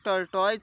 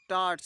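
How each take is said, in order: First: The word ends with a 'toys' sound. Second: The word ends with a short 'tus' sound. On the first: The speaker calls it wrong. "कई लोग टर्टॉइज पढ़ते हैं" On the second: The speaker calls it right. "इसका pronunciation सही क्या है तो टार्ट्स है"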